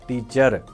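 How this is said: The final r is pronounced strongly and stressed. "अब हम बहुत ज़्यादा स्ट्रेस देते हैं एंड पे।"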